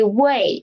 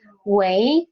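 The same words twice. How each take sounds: First: 喂 with a falling tone; 喂 falling in fourth tone. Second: 喂 with a rising tone; 喂 climbing in second tone. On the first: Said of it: "the first tone". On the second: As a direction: say 喂 low, then lift it like a question. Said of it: "the second tone". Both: Shown as a demonstration.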